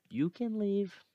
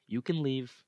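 First: High mock dismissal. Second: Said in the usual way. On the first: Mocking his doubt in a much higher voice. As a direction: jump much higher and tease.

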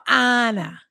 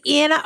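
First: "Anna" as AH-nuh; "Anna", opened up to rhyme with "Donna"; Anna with broad A. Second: "Anna" as ANN-uh; "Anna", first vowel flat as in "Ann"; Anna with short A. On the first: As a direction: say "Anna" with the A of father. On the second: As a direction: say "Anna" with the A of cat. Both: Shown as a demonstration. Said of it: "is it Anna or Anna".

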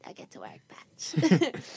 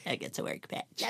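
First: Soft unvoiced echo of the line; whispered. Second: Breathy whisper of the line. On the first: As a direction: whisper it back quietly. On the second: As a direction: whisper it under your breath. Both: Shown as a demonstration.

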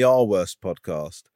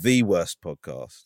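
First: Slow, measured "our worst podcast", contrast on "our"; stress on "our". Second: "the" said as a full "thee", slow and weighty; slow down and lean on "the" as the ultimate; stress on "the". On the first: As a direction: lean on "our" to set up a contrast. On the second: Topping it with the worst ever. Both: Real, not acted.

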